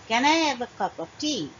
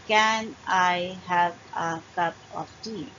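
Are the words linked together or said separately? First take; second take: linked; separate. First: The words are joined together with reductions. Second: Each word is said separately and fully. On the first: The speaker calls it right. "I'll say, ... So here I've used reduction" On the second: The speaker calls it wrong. "I don't say"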